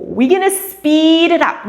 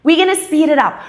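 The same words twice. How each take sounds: First: Higher, louder call to speed up; rally the class to go faster; energetic cue. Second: Higher, louder call to speed up; energetic cue. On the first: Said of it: "when I'm there". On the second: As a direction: push them on again. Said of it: "they don't do the next one". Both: Shown as a demonstration.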